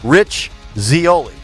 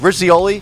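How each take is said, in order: First: A clear pause separates the two names. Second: The two names run together quickly without a pause. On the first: It is heard as two separate names. The speaker calls it right. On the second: It sounds like a single word, Rizzioli. The speaker calls it wrong.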